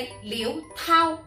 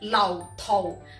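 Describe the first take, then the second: First: The second syllable has Mandarin first tone. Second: The second syllable has Cantonese fourth tone. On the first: "普通话系读第一声" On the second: "粤语系读第四声"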